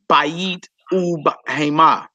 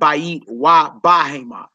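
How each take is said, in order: First: The word for 'and' is an 'oo' sound. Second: The word for 'and' is a 'va' sound. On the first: The speaker calls it right. "Notice it is bayit ub hema" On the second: The speaker calls it wrong. "It's not bayit wa bahema"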